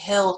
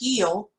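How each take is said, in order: First: The word is said as one syllable. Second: The word is stretched into two syllables.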